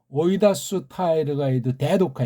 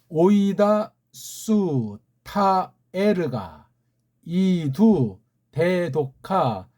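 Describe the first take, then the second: First: It is read at a faster pace. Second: It is read at a slow pace. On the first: "조금 빨라 읽어볼까요? ... 보통 수준의 속도로 읽어드렸어요" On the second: "천천히 읽어드렸어요"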